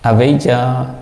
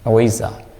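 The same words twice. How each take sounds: First: It is said the international, non-Burmese way. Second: It is said the Burmese way. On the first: "this is international pronunciation" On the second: "our pronunciation is avijja"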